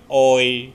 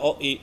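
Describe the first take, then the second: First: The two vowels blend into one gliding sound. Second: The two vowels are said as separate sounds. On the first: The speaker calls it right. "tapi oi" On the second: The speaker calls it wrong. "O sama i enggak oi"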